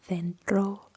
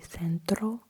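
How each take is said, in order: First: The c sounds like th. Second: The c does not sound like th. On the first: This is how people in Spain say it. "In Spain, they would pronounce it as th" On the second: This is how people in Latin America say it. "in Latin America, they would say centro"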